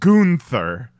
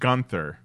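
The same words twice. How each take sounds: First: The name is said in an exaggerated, showy way. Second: The name is said in a plain, ordinary way. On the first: "how ridiculous their pronunciation of his name is" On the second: "It's not just Gunther"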